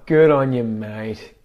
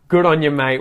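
First: The tone sounds sarcastic and mocking. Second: The tone sounds sincere and approving. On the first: The speaker means the person did something dumb. "Or it can be used sarcastically" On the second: The speaker is really praising the person for doing well. "depending on if you're serious"

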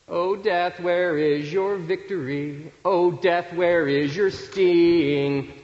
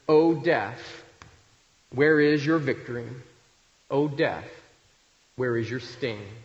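First: It is said in a mocking, taunting tone. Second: It is said in a plain, solemn tone.

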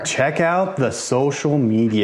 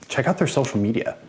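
First: It is said louder, with more force. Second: It is said at a normal, quieter volume.

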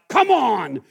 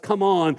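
First: It is said in a strict, stern way. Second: It is said in a mild, gentle way.

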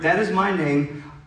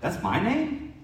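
First: It sounds firm and confident. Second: It sounds unsure and questioning.

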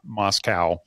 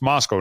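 First: The final syllable rhymes with 'cow'. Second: The final syllable rhymes with 'go'. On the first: This is how outsiders say the town's name. The speaker calls it wrong. "not Moscow, for all of the, those of you that are on the East Coast" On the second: This is how the Idaho town is said. The speaker calls it right. "it's Moscow"

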